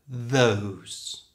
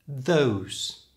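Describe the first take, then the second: Both takes have the same delivery.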